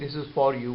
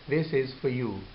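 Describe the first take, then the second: First: The word for keeps its full vowel. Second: The word for is reduced and weak. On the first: The speaker calls it wrong. "instead of saying" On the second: The speaker calls it right. "we say"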